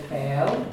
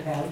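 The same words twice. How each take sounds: First: "bell" with the short e drawn out long; long-e mispronunciation of "bell"; vowel wrongly lengthened. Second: "pel" with a short, quick e; short vowel. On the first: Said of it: "people get that short and short E long". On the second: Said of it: "It's a shorty". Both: Shown as a demonstration.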